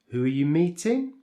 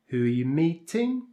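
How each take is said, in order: No difference in how they are said.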